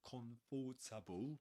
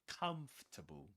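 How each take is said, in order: First: It is said with four syllables. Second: It is said with three syllables. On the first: The speaker calls it wrong. "or comfortable" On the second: The speaker calls it right. "but comfortable"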